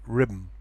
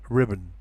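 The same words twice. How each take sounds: First: The final vowel is dropped, ending in an m sound. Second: The final vowel is kept, ending in an n sound. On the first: "if you pronounce very quickly" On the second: "if you pronounce more slowly"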